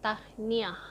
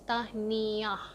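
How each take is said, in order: First: The word is said quickly, syllables run together. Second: The word is said slowly, syllable by syllable. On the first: "but you say it really fast, like" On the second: "I don't know if it's two syllables or three syllables"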